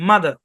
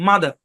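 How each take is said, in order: The two takes are said the same way.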